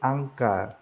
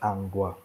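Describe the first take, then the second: First: The second syllable starts with a tense consonant. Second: The second syllable starts with a plain consonant. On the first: The speaker calls it right. "pronounced uh, tensified" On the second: The speaker calls it wrong. "not angwa"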